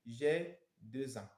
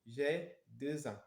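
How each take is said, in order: Both takes have the same delivery.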